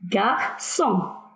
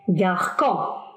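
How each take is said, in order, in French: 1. Le c se prononce avec un son s. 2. Le c ne se prononce pas avec un son s. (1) "le C C D avec O se prononce se" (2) "Si on enlève la C D, le C fait un autre son"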